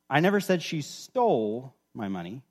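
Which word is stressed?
stole. The stress is on "stole".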